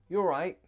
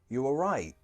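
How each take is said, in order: First: It sounds light, casual and happy. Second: It sounds concerned, with an up-down tune. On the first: It is just a greeting, like how are you. "It's very casual" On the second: The asker thinks something bad happened. "the intonation goes up and down there"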